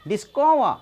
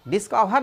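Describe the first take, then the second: First: डिस्कवर said right as dis-ko-va, no final r, firmly; correct pronunciation. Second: डिस्कवर said wrongly with a full final r, dis-ka-var; the mistaken डिस्कवर, ending in a clear var; wrong pronunciation. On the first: Teacher gives students the correct डिस्कवर firmly. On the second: Teacher shows students the wrong way to say डिस्कवर. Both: Shown as a demonstration. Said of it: "डिस्कवर नहीं कहना है".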